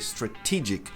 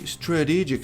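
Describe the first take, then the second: First: The stressed t is a clear t sound. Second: The stressed t is a flapped r-like sound. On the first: The speaker calls it right. "mas aqui não dá, tem que ser strategic" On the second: The speaker calls it wrong. "se eu trocar por re... você destrói a palavra"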